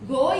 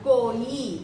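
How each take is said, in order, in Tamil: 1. வார்த்தை துண்டாக முடியுது, கடைசியில் உயிர் ஒலி இல்ல. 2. வார்த்தை கடைசியில் தெளிவான உயிர் ஒலியில் முடியுது.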